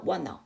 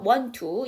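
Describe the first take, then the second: First: No t sound is heard; n runs into the vowel. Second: Only one t sound is heard, before the vowel. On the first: "tt를 다 발음 안 하고 n을 넘겨버리니까 wanna" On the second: "앞에 t를 하지 마셔서 want to. 이게 첫 번째 발음"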